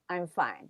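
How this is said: It is said in a calm, reassuring tone. The person really is okay.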